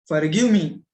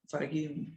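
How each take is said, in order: First: Forceful, pleading cry of forgive; loud plea for forgiveness. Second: Forgive me dropped to a quiet, hushed plea; soft plea for forgiveness. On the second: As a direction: murmur Forgive me softly, almost to yourself. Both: Retold or imitated. Grocer begs mother's forgiveness.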